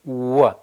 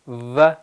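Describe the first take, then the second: First: The w is made with rounded lips. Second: The w is made with teeth on lower lip. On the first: The speaker calls it right. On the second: The speaker calls it wrong.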